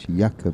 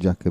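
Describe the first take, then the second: First: The name starts with a Y sound. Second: The name starts with an English J sound. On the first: The speaker calls it right. "it's a silent J" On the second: The speaker calls it wrong. "it's not Jakob"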